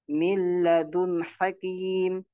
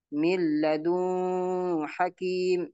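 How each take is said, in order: First: The n sound is short and clear. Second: The n sound is held longer and nasal. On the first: The speaker calls it right. "harus dibaca jelas" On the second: The speaker calls it wrong. "Ini tidak benar cara membacanya"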